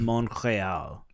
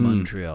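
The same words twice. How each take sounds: First: The name is pronounced the French way. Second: The name is pronounced the English way. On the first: "The French way of saying Montreal is Montreal" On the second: "I know in English, you're supposed to say Montreal"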